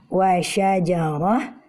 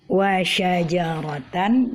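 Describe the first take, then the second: First: The word ends with a soft 'h' sound. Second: The word ends with a 'tan' sound. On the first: "bila kita berhenti pada tan yang ta marbutah fathatain ini, maka kita uh, membacanya menjadi" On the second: "seperti pada kalimat ini"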